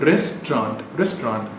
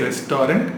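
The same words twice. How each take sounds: First: Restaurant as RES-traunt, falling; two syllables. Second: Restaurant as res-TO-rent, rising; mispronounced restaurant. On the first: Teacher drilling the correction, two syllables. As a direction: say restaurant without the middle vowel. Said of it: "Two syllable". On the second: Teacher showing what to avoid, mispronounced. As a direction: say restaurant in three syllables. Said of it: "Don't say". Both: Shown as a demonstration.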